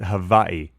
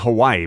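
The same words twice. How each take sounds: First: It is said the way locals say it. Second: It is said the usual English way. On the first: This is how they say it there. "but they pronounce it" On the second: This is how we say it. "We say"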